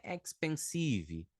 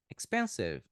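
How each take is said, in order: First: "expensive" as ex-pen-SEE-vee; slow Portuguese-style "expensive"; wrong Brazilian pronunciation. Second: Ex-PEN-siv, falling; correct English pronunciation. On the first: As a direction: stress SEE and add ee at the end of "expensive". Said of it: "Não é expensive". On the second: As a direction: lower "Expensive", stressed on PEN. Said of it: "Fala expensive". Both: Shown as a demonstration.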